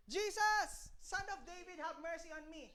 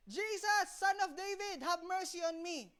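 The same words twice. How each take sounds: First: Hushed mock cry for mercy, pitched up at the start; stage-quiet imitation of calling out; imitated blind beggar's call. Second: Higher, drawn-out plea, still held soft; mock persistent beggar's call, slowing at the end; imitated insistent cry. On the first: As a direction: plead softly, as if calling from within a crowd. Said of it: "Tingnan pa ba yung sumigaw". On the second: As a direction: call out once more, undeterred by the hushing. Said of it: "Gusto pa rin".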